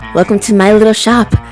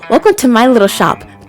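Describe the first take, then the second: First: It is said in a put-on character voice. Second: It is said in a plain voice.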